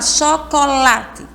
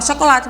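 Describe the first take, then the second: First: The word is said slowly, syllable by syllable. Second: The word is said quickly, syllables run together. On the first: "mais pausadamente" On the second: "muito rápido"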